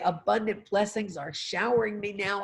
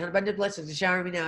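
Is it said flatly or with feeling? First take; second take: with feeling; flatly. First: It is said warmly, with strong feeling. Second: It is said flatly, without feeling.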